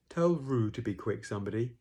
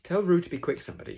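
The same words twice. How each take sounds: First: Eeyore. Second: High, loud, brisk call; wrong character voice. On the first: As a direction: complain it wearily, less hurried. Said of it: "Eeyore saying that". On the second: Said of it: "Sorry, that's, uh, Eeyore saying that". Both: Acted.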